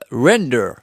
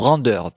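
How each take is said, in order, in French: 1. Le mot est prononcé avec un accent anglais. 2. Le mot est prononcé avec un accent français.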